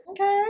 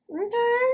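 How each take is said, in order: First: Squeaky high "Okay". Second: Even higher held "Okay". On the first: Vlogger reacting to brows, squeaky high "Okay". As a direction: pop the word "Okay" up high. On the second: Vlogger approving her brows, high sing-song "Okay". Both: Real, not acted.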